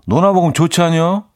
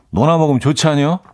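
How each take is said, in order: First: Chungcheong dialect. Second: Easy rising Chungcheong twang; Chungcheong dialect. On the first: Radio host proudly demoing his Chungcheong dialect for listeners. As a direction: show off a native-sounding Chungcheong line. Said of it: "자신 있게". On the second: Host repeating his Chungcheong dialect catchphrase to listeners. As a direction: toss off the dialect line once more. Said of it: "충청도 사투리로". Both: Shown as a demonstration.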